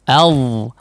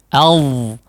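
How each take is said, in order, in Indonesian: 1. Vokalnya terbuka dan jernih, seperti a. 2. Vokalnya terbuka dan jernih, seperti a.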